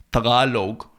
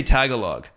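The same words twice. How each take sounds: First: Tagalog said the native way, "tuh-GAH-log"; native pronunciation. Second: Tagalog as English speakers say it, "TAG-uh-log"; English pronunciation. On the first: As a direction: stress the long GAH in Tagalog. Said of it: "pretentious by saying Tagalog". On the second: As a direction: stress the first syllable of Tagalog, flat "a". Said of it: "they say Tagalog". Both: Shown as a demonstration.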